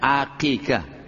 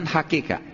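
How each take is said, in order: First: The word begins with a vowel sound. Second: The word begins with an h sound. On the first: The speaker calls it right. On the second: The speaker calls it wrong. "Bukan hakikah"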